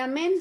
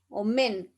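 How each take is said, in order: First: The word begins with an open 'a' vowel. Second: The word begins with a rounded 'o' vowel. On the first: This is the usual Spanish way of saying it. The speaker calls it wrong. "En hebreo no se dice amén" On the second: This is how it is said in Hebrew. The speaker calls it right. "sino se dice omem, omen"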